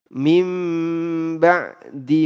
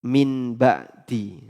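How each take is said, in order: First: The first word ends in an m sound. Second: The first word ends in a clear n sound. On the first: The speaker calls it right. "Harusnya dibaca dibaca iklab" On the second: The speaker calls it wrong. "Dia baca min ba'di. Jadinya apa? Idhar"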